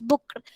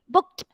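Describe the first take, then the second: First: The ending is said as a full 'ked' syllable. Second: The ending is said as a short 'kt' sound. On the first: The speaker calls it wrong. "they immediately read it like this" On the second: The speaker calls it right. "It is pronounced as K T"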